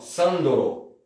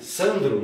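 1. Uma vogal extra, o, separa o d e o r. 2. O d e o r são ditos juntos, sem vogal. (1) "em japonês, você escreveria assim, ó, Sandoro" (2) "eles não conseguem falar Sandro"

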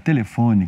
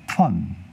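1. A palavra é dita com quatro sílabas completas. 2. A palavra é encurtada para menos de duas sílabas. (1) "que tem quatro sílabas aqui no Brasil" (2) "eles tinham diminuído de novo essa palavra"

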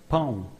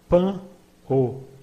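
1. A terminação é um único som nasal deslizante. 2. A terminação se divide em duas vogais separadas. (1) "but in everyday language it becomes pão" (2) "We could expect that the pronunciation would be pan o"

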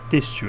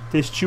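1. A sílaba tônica está na primeira sílaba. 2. A sílaba tônica está na última sílaba. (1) "Mudei a sílaba tônica de lugar" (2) "eu falei textil"

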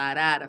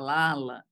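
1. A palavra é pronunciada com sons de R. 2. Os sons de R são trocados por sons de L. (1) "em vez de falar arara" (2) "ou não consegue pronunciar o R, como cebolinha"

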